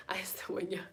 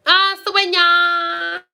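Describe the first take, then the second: First: Very soft, almost whispered; murmured repeat. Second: High, loud, drawn-out cry; loud call. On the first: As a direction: murmur it under your breath. Murmured repeat after loud call. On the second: Loud drawn-out call, then quiet repeat. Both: Real, not acted.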